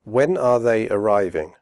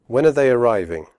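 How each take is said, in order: First: Slow with full are; careful slow question; slowly. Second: Fast, are reduced to schwa; quick natural question; quickly. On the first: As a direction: say each word clearly, slowly. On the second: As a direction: run it together quickly. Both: Shown as a demonstration. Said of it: "first slowly and then quickly".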